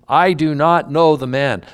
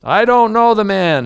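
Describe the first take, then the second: First: Raised, emphatic denial, not yet shouting; firm denial. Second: Much higher and louder angry shout; cursing denial. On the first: Peter denying Jesus to the bystanders, firm raised denial. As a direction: push the denial out firmly with no cursing heat. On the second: Peter swearing at those who stood by, furious shouted denial. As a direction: blast the denial like a cursing construction worker. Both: Acted. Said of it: "he began to curse and swear".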